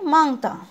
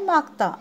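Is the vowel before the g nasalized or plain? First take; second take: nasalized; plain. First: The first vowel is said with nasalization. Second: The first vowel is said without nasalization. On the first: The speaker calls it right. "क्या लिखना है हमें?" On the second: The speaker calls it wrong. "क्या लिखा है?"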